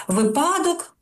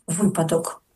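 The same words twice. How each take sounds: First: Випадок with high pitch punched on the wrong syllable; wrong stress in випадок. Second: Випадок stressed on the first syllable, lower and falling; correct stress in випадок. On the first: Teacher showing how people misstress випадок, wrong stress. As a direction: demonstrate the mistaken stress in випадок, raised high. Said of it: "кажуть «випадок» замість «випадок»". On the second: Teacher correcting a common mistake, correct stress on випадок. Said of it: "замість «випадок»". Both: Shown as a demonstration.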